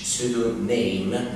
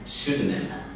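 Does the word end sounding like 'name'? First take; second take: Yes; No. First: The ending sounds like the word 'name'. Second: The ending does not sound like 'name'. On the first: The speaker calls it wrong. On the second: The speaker calls it right.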